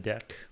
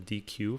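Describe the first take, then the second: First: The word is said as one syllable, 'deck'. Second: The word is said as two letter names. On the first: "as Python calls it, a deck" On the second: "which I used to pronounce as D Q"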